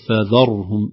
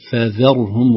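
First: The dh sound is heavy and emphatic. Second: The dh sound is light and thin. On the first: The speaker calls it wrong. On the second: The speaker calls it right.

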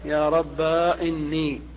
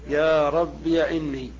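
First: The word ends in a long a vowel. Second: The word ends in -iya. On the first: "قلبها ألفا" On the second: "إثباتها مفتوحة"

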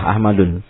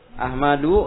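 First: The word ends with an added n sound. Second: The word ends on a vowel, without final n. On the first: The speaker calls it wrong. "Kalau dibaca dengan tanwin salah" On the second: The speaker calls it right. "Ahmadu harus tidak tanwin"

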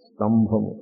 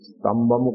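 First: The b sound is aspirated, with a breathy puff. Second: The b sound is plain, without aspiration. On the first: The speaker calls it right. "ఇక్కడ ఉండాల్సింది స్తంభము" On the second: The speaker calls it wrong. "స్తంభము కాదు, ... బా పెట్టుకున్నాడు"

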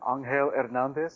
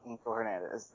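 First: The name has a Spanish pronunciation. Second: The name has an English pronunciation. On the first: "try to correct me, and they're like, oh, you mean" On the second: "I know my name, and it's"

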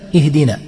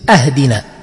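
First: The word begins with an 'i' vowel. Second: The word begins with an 'a' vowel. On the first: It asks to be guided. The speaker calls it right. "لأن اهدنا بالكسر من الهداية" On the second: It asks to be given a gift. The speaker calls it wrong. "كفتح همزة اهدنا فيصير أهدنا"

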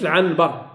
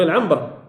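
First: The nasal before b is pronounced as n. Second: The nasal before b is pronounced as m. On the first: The speaker calls it wrong. "ما تقولش العنبر" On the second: The speaker calls it right. "قولوا العنبر"

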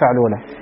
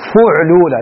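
First: The first vowel is a. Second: The first vowel is u. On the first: The speaker calls it wrong. "لا فعلولة" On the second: The speaker calls it right. "أن مثاله فعلولة بالضم"

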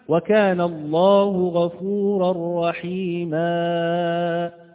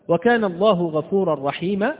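First: A vowel is stretched into an extra long sound. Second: The final long vowel is said at normal length.

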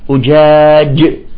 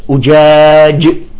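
Both takes have the same delivery.

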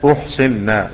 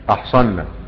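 First: The first vowel is a rounded 'u' sound. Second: The first vowel is an open 'a' sound. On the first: The women were given in marriage. "أحصنا مع الجمهور مع البقية، وقرأ الباقون بضمها" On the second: The women themselves entered into marriage. "بفتح الهمزة أحصنا"

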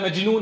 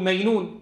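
First: The middle consonant is a j sound. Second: The middle consonant is a y sound. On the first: The speaker calls it right. "بدل مجنون" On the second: The speaker calls it wrong. "يقلبون الجيم ياء"

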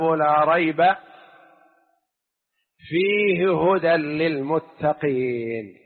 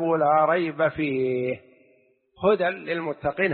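First: The pause comes after the word rayb. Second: The pause comes after the word fih. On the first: There is no doubt; in it there is guidance for the pious. "وقف آخر" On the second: No doubt is in the book; it is wholly guidance for the pious. "هذه أولى"

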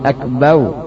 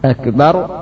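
First: The final syllable ends with a w sound. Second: The final syllable ends with an r sound.

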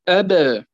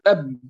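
First: The final b is released with a slight bounce. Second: The final b is held closed without release. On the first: The speaker calls it right. "وإنما نقول أب" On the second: The speaker calls it wrong. "لا نقول أب"

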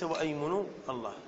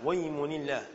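First: A glottal stop is pronounced before the vowel. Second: The glottal stop is dropped, linking straight on. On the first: The speaker calls it wrong. "وليس وأيمن الله" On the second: The speaker calls it right. "تسقط في درجة الكلام"

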